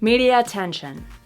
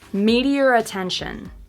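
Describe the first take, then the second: First: The vowel flows into the next word without r. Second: An r sound joins the two words. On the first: "linking them but not using the intrusive R" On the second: "You can actually see my lips making the R sound between the two words"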